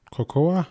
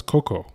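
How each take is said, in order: First: "Cocoa" said as ko-KO-a, three syllables; "Cocoa" copied as ko-ko-a, rising; imitating her cocoa. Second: "cocoa" said as KOH-koh, two syllables; "cocoa" the plain English way, KOH-koh; usual English cocoa. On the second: Shown as a demonstration. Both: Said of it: "Did she just say cocoa?".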